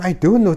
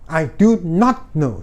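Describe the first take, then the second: First: The word not is contracted and unstressed. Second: The word not is said fully and stressed. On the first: A plain refusal to answer. "Jangan I don't terus" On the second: An annoyed, firm refusal after repeated asking. "Jadi not-nya tuh bisa ditekan"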